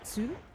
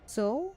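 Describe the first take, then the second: First: The vowel is an 'oo' sound, like 'sue'. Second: The vowel is an 'oh' sound, like 'so'. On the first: The speaker calls it wrong. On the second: The speaker calls it right. "Sue is pronouncing the same as so"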